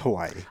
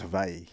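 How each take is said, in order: First: The middle consonant is a W sound. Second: The middle consonant is a V sound. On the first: This is the common mainstream pronunciation. "But I mean, mainstream culture, right?" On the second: This is the technically correct native pronunciation. "In the Hawaiian language, W's are pronounced with a V"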